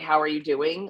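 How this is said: It is a slow, sincere, caring question.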